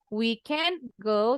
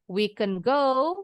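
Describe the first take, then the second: First: The vowel in can is long. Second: The vowel in can is short. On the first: We are not able to go. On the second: We are able to go.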